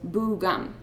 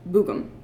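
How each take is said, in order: First: The second vowel is pronounced fully and clearly. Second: The second vowel is unstressed and reduced. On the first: "the true form of the word was boo-gum" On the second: "usually pronounced bugum, with an unstressed second vowel"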